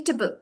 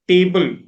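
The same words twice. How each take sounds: First: "table" as a quick tuh-bul; reduced A. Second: "table" as TAY-bul with a full long A, louder; very flat. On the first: Teacher corrects the learner, reduced vowel. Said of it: "We are not pronouncing the A". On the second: Learner demonstrates her old pronunciation, flat and full. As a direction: hit the whole A in "table". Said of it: "very flat". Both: Shown as a demonstration.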